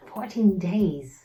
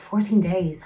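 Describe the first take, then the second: First: Slow, drawn-out repeat in dismay; slow, dismayed echo of the number; slow disbelief. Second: Said in the usual way. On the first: Shown as a demonstration. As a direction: let it sink in slowly.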